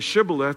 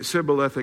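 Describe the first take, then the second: First: The word begins with a sh sound. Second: The word begins with an s sound. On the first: "Say Shibboleth" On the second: "they wouldn't say the S-H. They would say Sibboleth"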